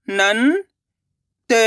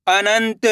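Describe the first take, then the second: First: अनंत split slowly; syllable by syllable. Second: Said in the usual way. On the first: Shown as a demonstration. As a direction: sound out अनंत. (अनंत को अक्षर-अक्षर बोलना) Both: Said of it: "अब आगे देखिए".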